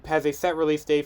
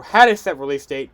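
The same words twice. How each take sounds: First: Said in the usual way. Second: "had" punched louder than the rest; emphatic "had", rest in usual voice; stress on had. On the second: Real, not acted. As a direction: lean on "had" to correct the tense. Corrects has to had.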